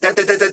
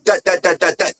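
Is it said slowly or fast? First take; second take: fast; slowly. First: The syllables are said very fast. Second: The syllables are said at a slow steady beat.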